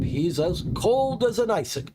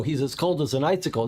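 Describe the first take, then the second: First: High first take. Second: Said in the usual way. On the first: Shown as a demonstration.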